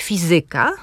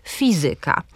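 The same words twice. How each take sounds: First: "fizyka" with stress on the first syllable, FI-zy-ka; akcent na pierwszą sylabę. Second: "fizyka" with stress on the middle syllable, fi-ZY-ka; akcent na drugą sylabę. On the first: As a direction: stress FI in "fizyka", demonstrating clearly. („fizyka” z akcentem na FI) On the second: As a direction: stress ZY in "fizyka", demonstrating clearly. („fizyka” z akcentem na ZY) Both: Shown as a demonstration. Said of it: "postaram się teraz wymówić kilka wyrazów, różnie je akcentując".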